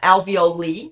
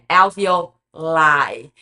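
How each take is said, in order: First: The final vowel sounds like 'ee'. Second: The final vowel sounds like 'eye'. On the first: The speaker calls it wrong. "esse I não é alveoli" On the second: The speaker calls it right. "finge que tem o A I no final dessa palavra"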